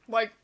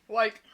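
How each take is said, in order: The two takes are said the same way.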